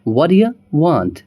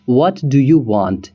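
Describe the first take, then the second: First: What do you is blended into one word, whaddya. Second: Each word of what do you is said separately. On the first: "native तरीके से अगर हमें बोलना होगा तो हम बोलेंगे" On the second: "जैसे कि"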